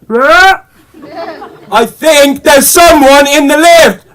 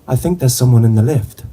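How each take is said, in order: First: It is shouted loudly. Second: It is said clearly at normal volume. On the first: "No need to shout!" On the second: "I make sure I enunciate clearly"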